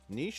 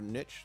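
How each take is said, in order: First: The word rhymes with quiche. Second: The word rhymes with snitch. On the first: "Niche like quiche" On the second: "niche like snitch"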